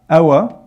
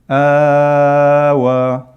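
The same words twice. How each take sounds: First: The vowel is held only briefly. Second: The vowel is stretched out much longer. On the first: The speaker calls it wrong. "instead of saying" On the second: The speaker calls it right. "you extend it four times"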